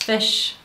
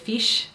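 First: The vowel has a Kiwi sound. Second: The vowel has an Australian sound. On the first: "I say my eyes still very Kiwi" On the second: "instead of"

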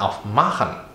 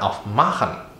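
First: The stress is on the stem syllable, ma. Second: The same.

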